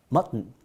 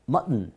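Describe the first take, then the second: No difference in how they are said.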